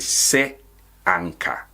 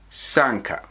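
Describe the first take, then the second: First: "se anka" as two separate words, pause between; written form of sanka. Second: "sanka" run together as one word; spoken contraction. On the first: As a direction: split it apart: "se", then "anka". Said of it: "But we write it se anka". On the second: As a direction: merge "se anka" into a single "sanka". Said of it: "But we say". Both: Shown as a demonstration.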